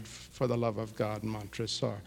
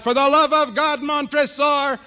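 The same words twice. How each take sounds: First: Far softer, much lower, hollow echo of the cry; faint echo. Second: Cries out. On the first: The cry heard faintly from inside the closed oven. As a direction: let it fade as if heard from behind the oven. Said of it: "we hear from". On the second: Dead man crying out as he's shoved into the furnace. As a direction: wail it as the furnace door shuts. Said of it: "He cries out". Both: Acted.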